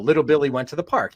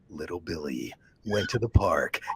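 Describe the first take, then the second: First: It is said in a plain, everyday voice. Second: It is said in a deep, intense, serious voice. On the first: Billy is just off to have fun. "Billy, go have a good time" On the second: Something terrible is about to happen. "make it sound incredibly intense and serious"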